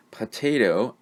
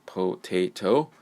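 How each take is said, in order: First: Said in the usual way. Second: "potato" slowly in three beats, po, tay, toe; syllable by syllable. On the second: Shown as a demonstration. Teacher showing this is three syllables, slow syllable by syllable. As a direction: break "potato" into three full, separate syllables. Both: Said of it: "this is three syllables".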